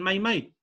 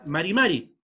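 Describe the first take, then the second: First: The R sounds are left out entirely. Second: The R sounds are pronounced plainly. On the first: "ni siquiera pronuncian la R y dicen mai mai" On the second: "es marimari, como suena"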